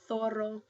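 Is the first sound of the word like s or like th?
th. The z sounds like th. This is the pronunciation used in Spain. "if you go to Spain it's going to be"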